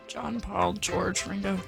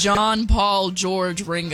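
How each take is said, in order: First: It is said quietly. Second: It is said loudly.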